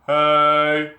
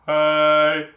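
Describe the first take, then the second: The two takes are said the same way.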